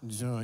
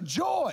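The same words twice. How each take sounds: First: The word is said flatly, with little energy. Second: The word is said brightly, with lively energy. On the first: The speaker calls it wrong. "Joy doesn't just like fall out of your mouth" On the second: The speaker calls it right. "How do you say joy?"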